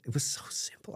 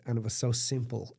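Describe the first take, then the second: First: A soft whispered echo of the line before. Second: Said in the usual way. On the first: Real, not acted. To the interviewer, awed by the simplicity, whispering. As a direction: breathe it out as an unvoiced whisper.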